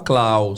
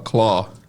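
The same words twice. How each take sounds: First: Claw is said with a spelling-based vowel. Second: Claw is said with an open 'aw' vowel. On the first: The speaker calls it wrong. "não se fala claw" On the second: The speaker calls it right. "se fala claw"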